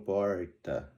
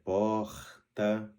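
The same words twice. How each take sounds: First: The R has a rural regional accent quality. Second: The R is a trilled, rolled sound. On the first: "alguns que no interior de São Paulo, por exemplo, falam porta" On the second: "O R rolado"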